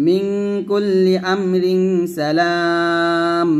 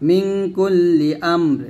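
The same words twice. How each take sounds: First: Slow recited মিন কুল্লি আমরিন সালাম, আমরিন running straight into সালাম; joined reading. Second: Slow recited মিন কুল্লি আমর, ending cleanly on a silent র; stop at the end. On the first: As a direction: link আমরিন to সালাম without a break. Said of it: "এই দুটো এখন মিলাবো". (আমরিন সালাম মিলিয়ে টেনে তেলাওয়াত) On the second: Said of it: "এখানে থামবো". (আমর-এ থেমে যাওয়া তেলাওয়াত) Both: Shown as a demonstration.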